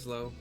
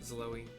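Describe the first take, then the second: First: The name is said with one syllable. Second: The name is said with two syllables. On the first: "Could be Zlo, I don't know" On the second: "that's why I'm pronouncing it Zloe"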